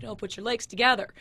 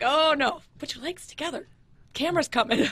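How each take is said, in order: First: Said in the usual way. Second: Higher, louder urgent warning. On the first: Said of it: "I'm like". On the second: Retold or imitated. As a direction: hurry him before the camera. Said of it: "I was just like".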